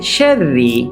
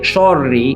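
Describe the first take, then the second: First: The word is pronounced light, with a bright vowel. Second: The word is pronounced heavy, with a darkened vowel. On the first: The speaker calls it right. "It's light, not heavy" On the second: The speaker calls it wrong. "Don't say shorri"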